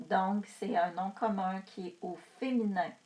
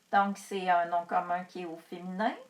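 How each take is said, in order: The two takes are said the same way.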